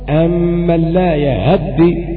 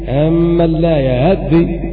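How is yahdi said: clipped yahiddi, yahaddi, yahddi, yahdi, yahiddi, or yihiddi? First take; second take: clipped yahiddi; clipped yahiddi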